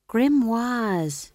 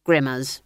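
First: "Grimoires" said high, with a long French-style "wahz" ending; high, drawn-out "Grimoires"; corrected pronunciation. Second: "Grimmers" said as two plain English syllables; loud, homely "Grimmers"; mispronounced. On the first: Magrat corrects the word. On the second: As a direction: say "Grimmers" to rhyme with swimmers. Mispronounced word, then corrected. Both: A narrator's reading.

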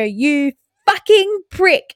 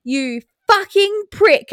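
First: Put-on toddler copying mum. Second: Put-on high, slow little-girl repeat of the swear; toddler voice. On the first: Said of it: "I hear Amara go". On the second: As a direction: play the proud toddler parroting mum. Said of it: "I said".

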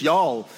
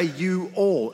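First: "y'all" run together as one syllable; contracted into one word. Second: "you all" as two distinct words; two separate words. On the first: Visitor showing his favorite American word, one-syllable "y'all". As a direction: squash it into a single "y'all". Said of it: "It's just y'all". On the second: Visitor explaining American speech, "you all" in two words. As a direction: say "you all" uncontracted, both words sounded. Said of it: "I don't have to say you all". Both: Shown as a demonstration.

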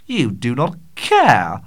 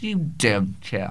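First: Do, not and care each said slowly and louder; emphatic denial. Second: Said in the usual way. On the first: Real, not acted. Host insisting to his listeners they do not care, slow and emphatic.

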